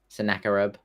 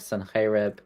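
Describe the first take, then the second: First: The name has an English-style pronunciation. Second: The name has a Hebrew-style pronunciation.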